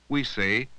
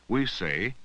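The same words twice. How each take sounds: Both takes have the same delivery.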